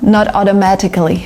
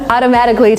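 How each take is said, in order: First: The T is pronounced as a clear T. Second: The T is softened into a D sound. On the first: The speaker calls it wrong. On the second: The speaker calls it right.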